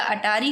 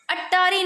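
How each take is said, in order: First: "अटारी" with single t; corrected pronunciation. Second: "अट्टारी" with held double t; rejected pronunciation. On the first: Teacher giving the correction, "अटारी" with one t. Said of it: "सीधा अटारी होगा". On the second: Teacher showing the error, "अट्टारी" with double t. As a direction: hold the tt in "अट्टारी". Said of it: "अट्टारी नहीं होता". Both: Shown as a demonstration.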